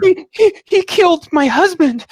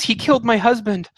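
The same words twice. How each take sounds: First: Stammering, high-pitched wail; panicked, tearful woman. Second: Higher-pitched cry at normal volume; restrained version of a horrified wail; distraught woman. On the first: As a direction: scream it in horror, loud and very high. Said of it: "she has tears down". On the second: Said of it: "yeah, she says". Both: Acted.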